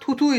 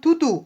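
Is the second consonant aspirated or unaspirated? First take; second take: aspirated; unaspirated. First: The second consonant is an aspirated th. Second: The second consonant is an unaspirated t. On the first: "উচ্চারিত হয়েছে থ আকারে" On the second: "সেটা তো ত ছিল"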